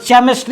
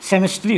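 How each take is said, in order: First: The word starts with a ch sound. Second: The word starts with an s sound. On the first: "अगर गलती से पढ़ दिए इसमें च" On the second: "अगर गलती से पढ़ दिए स"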